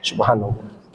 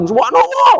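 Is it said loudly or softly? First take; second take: softly; loudly. First: It is said softly, only to oneself. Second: It is said loudly, for all to hear.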